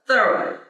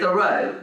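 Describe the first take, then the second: First: The stress is on the first syllable. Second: The stress is on the second syllable. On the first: This is how his family said the name. "the pronunciation was with the emphasis on the first part" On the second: This is how the name is usually said now. "that that is also correct"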